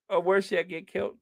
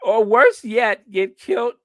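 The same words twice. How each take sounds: First: Said in the usual way. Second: Put-on Scottish accent. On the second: Host finally landing the punchline, Scottish accent. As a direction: belt out amateur Scottish. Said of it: "trying to do a Scottish accent".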